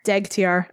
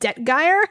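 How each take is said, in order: First: The G sound comes before the T sound. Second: The T sound comes before the G sound. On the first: The speaker calls it right. "the G comes first" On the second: The speaker calls it wrong. "I always flipped those two letters"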